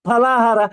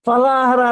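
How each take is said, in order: First: The first sound is made with both lips. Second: The first sound is made with lip and teeth. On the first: The speaker calls it right. "ತುಟಿಗೆ ತುಟಿ ತಾಗಿಸಿ ಹೇಳ್ಬೇಕಾದ್ದು" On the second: The speaker calls it wrong. "ಫ ಫ ಫ ಯ ಉಚ್ಚಾರ ಕನ್ನಡದಲ್ಲಿ ಇಲ್ಲ, ಫಲಾಹಾರ ಅಲ್ಲ"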